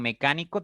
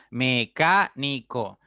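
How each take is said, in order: First: Said in the usual way. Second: "mecánico" split as me - CA - ni - co; four separate beats in "mecánico", leaning on "ca"; stress on CA. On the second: Shown as a demonstration. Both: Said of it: "La que suena más fuerte es".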